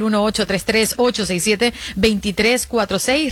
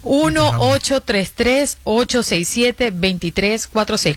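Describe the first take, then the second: First: The number is said fast. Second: The number is said slowly.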